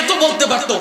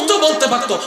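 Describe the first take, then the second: No difference in how they are said.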